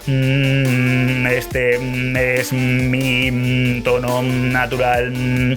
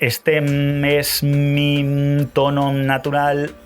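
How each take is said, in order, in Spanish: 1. La voz está en un tono aún más bajo. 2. La voz está en su tono normal. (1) "si puedes aún bajar más, pues vuelves a bajar"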